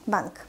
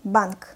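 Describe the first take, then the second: First: Quick, softer "Bank"; fast reading. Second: Firm, careful "Bank"; slow reading. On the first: Teacher reads as a native speaker, "Bank" said fast. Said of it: "I will read this word fast". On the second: Teacher models the word for beginners, "Bank" read slowly. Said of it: "I will read this word slowly". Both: Shown as a demonstration.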